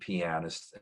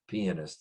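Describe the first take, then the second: First: It is said with an American pronunciation. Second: It is said with a British pronunciation. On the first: "that's the way we pronounce it in America" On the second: "is British"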